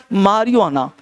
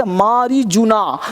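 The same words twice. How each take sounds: First: "मारिजुआना" said "maa-ri-waa-naa", silent j; correct pronunciation. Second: "मारीजूना" slowly, with a hard j; wrong pronunciation. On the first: Teacher models the word, "मारिजुआना" with j silent, falling. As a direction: say "मारिजुआना" with a w glide for the j. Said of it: "क्या होता है भाई". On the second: Teacher shows the misreading, "मारीजूना" with the j sounded. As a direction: say "मारीजूना" as spelt, maa-ree-joo-naa. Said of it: "तो मारीजूना पढ़ना नहीं है". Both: Shown as a demonstration.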